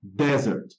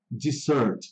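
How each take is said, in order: First: "desert" said DEZ-ert, stress on the first syllable; "desert", the sandy place, stressed up front; desert pronunciation. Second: "dessert" said di-ZERT, stress on the second syllable; "dessert", the sweet course, stressed at the end; dessert pronunciation. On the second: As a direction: say "dessert" with the stress falling on -SERT. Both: Shown as a demonstration. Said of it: "memorize aí essa pronúncia".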